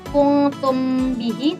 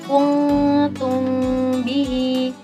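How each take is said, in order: First: The m is pronounced fully and clearly. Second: The m is pronounced faintly and obscured. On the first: The speaker calls it wrong. "Jadi bukan kuntum bihi" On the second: The speaker calls it right. "tapi kuntum bihi. Dibacanya samar"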